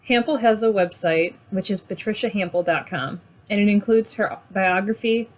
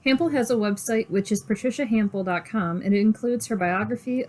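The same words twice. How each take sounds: First: It is read slowly with more breaths. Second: It is read at a normal pace.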